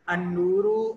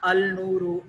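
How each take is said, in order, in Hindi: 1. 'l' मौन रहता है और अगली ध्वनि में मिल जाता है। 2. 'l' उपपद का स्पष्ट रूप से उच्चारित होता है। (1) "ये लाम साइलेंट हो जाएगा" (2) "ये पढ़ने का अंदाज गलत है"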